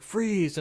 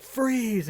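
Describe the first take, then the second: First: A higher, louder "Freeze!" in a movie-cop retelling; mock shout. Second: A high, louder "Freeze!" like a movie cop; mock shout. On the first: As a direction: call it out like a cop in the film. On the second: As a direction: bark the cop's order in fun. Retelling a movie cop yell.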